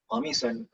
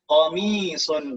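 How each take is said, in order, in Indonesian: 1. Vokal suku kata kedua dibaca pendek. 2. Vokal suku kata kedua dibaca panjang.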